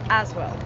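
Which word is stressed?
as. The stress is on the word as. This is how it is said in South Africa. "out here you put the emphasis on as"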